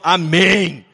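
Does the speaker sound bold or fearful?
bold. It is said boldly in a thickened, deep voice.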